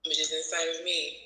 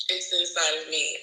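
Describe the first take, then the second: First: Tentative answer, "me" left unsure like a question. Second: "inside of me" stated more firmly, no question; firmer statement. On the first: Student unsure answering teacher on "inside of me", questioning. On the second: Student correcting herself to teacher on "inside of me", stated firmly. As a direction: state "inside of me" as a settled answer. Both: Real, not acted. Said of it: "You say it like a question".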